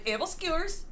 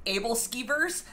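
First: "able skewers" with "skyoo" in place of "skee"; "able skewers" as the newly learnt version; corrected pronunciation. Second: "able skeevers" with "skee" in the second word; "able skeevers" read as it looks; American pronunciation. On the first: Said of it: "I learn that it's actually". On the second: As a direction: say "skeevers" with a long ee and a v. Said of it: "pronounced a different way". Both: Shown as a demonstration.

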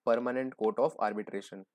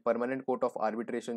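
First: Very slow, every word of Permanent Court of Arbitration laid out separately; spelled out slowly. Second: Said in the usual way. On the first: Shown as a demonstration. (बहुत धीरे, हर शब्द अलग करके)

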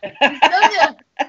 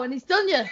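First: Slow, louder, laughing through it; laughing punchline. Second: Said in the usual way. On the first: Retold or imitated. Repeating the cat joke to friends, laughing slowly. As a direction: savour the punchline while cracking up.

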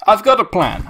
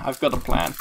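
First: Higher eager announcement; excited. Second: Soft sly mutter to yourself; quiet. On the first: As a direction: announce your scheme eagerly. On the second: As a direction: say it again under your breath. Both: Shown as a demonstration.

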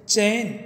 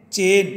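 First: चैन said with open ai as in Hindi; Hindi chain. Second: चेन said with a plain e, no ai glide; Malwi chen. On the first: Teacher showing the Hindi word, चैन said with ai. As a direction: read चैन clearly as the Hindi form. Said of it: "जैसे". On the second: Teacher showing the Malwi form, चेन with e. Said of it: "ए में बदल जाता है". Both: Shown as a demonstration.

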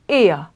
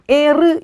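First: 에어 as "eh-uh", with no R heard; vocalised R. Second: 에르 with the final R said as "reu"; wrong sounded R. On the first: Teacher corrects the literal reading, vocalised R. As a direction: end 에어 on an open vowel. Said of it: "이렇게 발음하지 않고 에어". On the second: Teacher shows what to avoid, R sounded. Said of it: "이렇게 발음하지 않고". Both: Shown as a demonstration.

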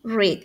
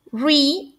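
First: "read" pronounced like "red", falling tone; short-e vowel on "read"; past-tense "read". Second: "Re-" pronounced like "reed", final d barely there; "ree" sound on "Re-"; present-tense "read". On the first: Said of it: "Y en pasado se lee". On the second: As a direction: say "Re-" as "ree", long ee vowel. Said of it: "En tiempo presente se lee". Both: Shown as a demonstration.

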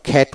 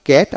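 First: খ্যাট with a puffed, aspirated খ; খ্যাট opening on breathy kh. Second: ক্যাট with a hard, unaspirated ক; ক্যাট opening on plain k. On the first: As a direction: let air burst after the k in খ্যাট. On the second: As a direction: say ক্যাট with no puff after the k. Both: Shown as a demonstration. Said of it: "আবার খ্যাট উচ্চারিত হয়".

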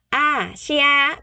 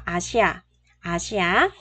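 First: "Asia" drawn out on a higher note; raised pitch. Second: "Asia" set low, with a small lift at the end; lowered pitch. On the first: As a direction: model "Asia" high and deliberate. Teacher models word slowly, higher. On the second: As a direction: drop the voice on "Asia". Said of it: "xuống giọng xíu ha". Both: Shown as a demonstration.

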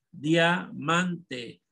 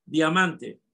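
First: Diamante stretched into separate parts; syllable by syllable. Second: Said in the usual way. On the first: Shown as a demonstration. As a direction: dictate "diamante" as dia, man, te. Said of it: "La van a dividir en sílaba". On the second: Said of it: "Entonces, ¿la tónica?".

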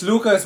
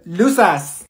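First: "Lucas" as LOO-kus; corrected name. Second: "Lucas" as LOO-sus, with an S sound; mispronounced name. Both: Acted. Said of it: "It's Lucas".

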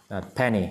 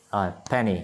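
The two takes are said the same way.

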